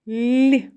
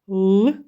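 First: The L sound is soft and palatalized. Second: The L sound is hard, not palatalized. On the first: "в слові ліс приголосний звук л вимовляється ніжно, лагідно, м'яко" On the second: "у слові лис приголосний звук л вимовляється твердо"

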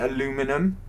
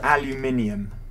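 First: It is said with an American pronunciation. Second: It is said with a British pronunciation. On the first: The speaker calls it wrong. "You say aluminum, which is completely wrong" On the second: The speaker calls it right. "It's called aluminium. That's the correct word"

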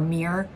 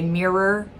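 First: The word is said as one syllable. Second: The word is said as two syllables. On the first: "It's like one syllable, M-E-E-R, mirror" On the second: "there are Americans who say mirror, and I personally think that's odd"

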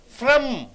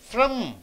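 Both takes have the same delivery.

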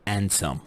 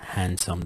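First: The word starts without an h sound. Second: The word starts with a clear h sound. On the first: "ما ينطقون حرف ال H، فيكون دائما صامت مثل" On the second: "ما يقول ha handsome زي the American accent"

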